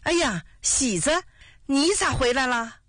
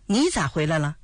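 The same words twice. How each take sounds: First: Father's delighted, higher-pitched greeting; happily surprised. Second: Said in the usual way. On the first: A narrator's reading. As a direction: greet your son with pleased surprise. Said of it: "高兴地说". (又惊又喜地招呼)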